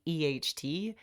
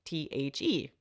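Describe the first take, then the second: First: Letters E H T spelt out one by one as the wrong way; backwards spelling. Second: Letters T H E spelt out one by one as the right way; correct spelling. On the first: Teaching how she once read the word backwards, spelling E H T slowly. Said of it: "the is not E". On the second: Showing the right order, spelling T H E letter by letter. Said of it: "it is". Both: Shown as a demonstration.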